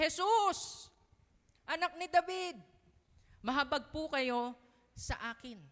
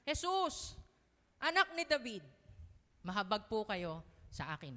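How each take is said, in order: First: Higher, louder cry to Jesus; loud faithful cry. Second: Pleading cry. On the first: Blind beggar not giving up on Jesus, loud desperate cry. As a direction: cry out with all your faith. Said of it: "Malakas yung pananampalataya niya". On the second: Blind beggar calling out to Jesus, loud pleading cry. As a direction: call out to Jesus begging. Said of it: "sabi niya". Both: Acted.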